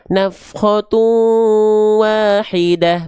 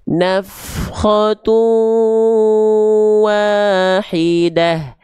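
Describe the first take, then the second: First: It is recited quickly with shorter vowels. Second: It is recited slowly with long vowels. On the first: "Kalau temponya cepat" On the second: "misalnya saya baca tempo lambat"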